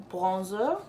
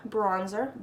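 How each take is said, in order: First: Bronzer said the French way, as plonzo; a playful French accent on Bronzer, plonzo; mock French. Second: Said in the usual way. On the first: Vlogger joking about French pronunciation, mock French accent. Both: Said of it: "That's how they say it when they are French".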